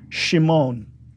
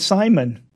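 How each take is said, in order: First: The name begins with a sh sound. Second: The name begins with a plain s sound. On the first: "instead of a sh" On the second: "They just translated as an S sound"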